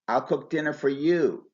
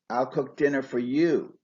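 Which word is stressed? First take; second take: you; you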